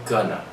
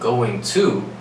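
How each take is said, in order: First: The two words merge into one short word. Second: Both words are said fully and separately. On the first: "We combine to and going together" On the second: "Instead of us saying going to"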